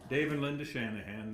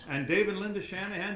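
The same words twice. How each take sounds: First: Said in the usual way. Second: Names called out higher and louder; greeting friends across the room, excited and loud. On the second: Real, not acted. Spotting friends in audience.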